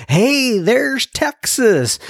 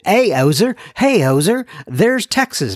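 First: High, drawn-out mock group greeting; saluto di gruppo imitato. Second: Higher, jokey Canadian greeting; badly faked Canadian accent, hailing a visitor; mock Canadian accent. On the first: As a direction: call out a welcome to a visitor, stretched and high. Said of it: "they didn't talk like that". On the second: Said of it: "I'm losing it with my Canadian accent".

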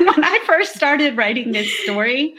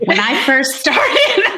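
First: High-pitched, giggly retake of the opening; laughing restart. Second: High-pitched, drawn-out start, breaking into laughter; laughing false start. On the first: Restarts laughing after joking about challenge. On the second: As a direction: begin high and slow, tipping into a laugh. Jokingly races a sixty-second challenge. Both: Real, not acted.

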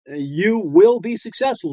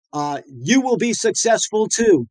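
First: "will" hit firmly, like a promise; stress on will. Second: YOU slowed and lifted on "you"; stress on you. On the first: Host reassuring listeners, stress on "will". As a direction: press "will" so it sticks in their head. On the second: Podcast host to dentist listeners, stress on "you". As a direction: lean on "you" to tell listeners they will be successful too. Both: Shown as a demonstration. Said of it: "Just get that in your head".

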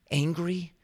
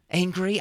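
First: Higher, questioning echo of the word; mock indignant echo. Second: Higher and louder rising Angry?; mock outraged echo. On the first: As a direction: repeat it back in disbelief. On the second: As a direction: throw the word back, more heated. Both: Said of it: "Jonah's response".

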